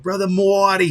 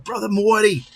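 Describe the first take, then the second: First: Loud, high mock Boston greeting; imitating a Boston accent. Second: High, loud Boston-style hail; imitating a Boston accent. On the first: Viewer greeting the pastor in a mock Boston accent. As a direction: call out the name in a put-on Boston accent. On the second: Retelling a viewer's greeting in a mock Boston accent. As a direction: sing out the name like a guy from Boston. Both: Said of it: "that cool of an accent".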